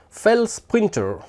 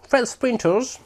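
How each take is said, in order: First: Name read with a light English accent; mild English accent on the name. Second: Hammed-up English accent, pitched higher; playful English accent showing off the name. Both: Shown as a demonstration. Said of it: "T'as vu un peu mon accent".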